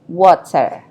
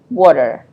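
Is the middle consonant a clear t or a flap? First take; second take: clear t; flap. First: The middle t is a clear t sound. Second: The middle t is a quick d-like flap. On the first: "instead of water" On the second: "They pronounce it as water"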